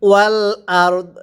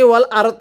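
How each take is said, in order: First: The final d sound is pronounced lightly. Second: The final d sound is pronounced heavily. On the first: The speaker calls it right. "এখানে রটা পরিপূর্ণ উচ্চারণ হবে, দটা হালকা উচ্চারণ হবে" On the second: The speaker calls it wrong. "এরকম পড়লে পড়া শুদ্ধ হবে না"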